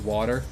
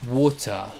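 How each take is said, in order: First: It is said with an American accent. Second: It is said with a British accent. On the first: This is the form the speaker preferred. The speaker calls it wrong. "as opposed to" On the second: This is the form that was taught as correct. The speaker calls it right. "you're supposed to say"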